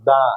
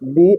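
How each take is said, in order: First: The vowel is a short uh sound. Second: The vowel is a long ee sound. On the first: It comes before a consonant. "the is uttered before the consonant" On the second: It comes before a vowel. "দি is uh, uttered before a vowel"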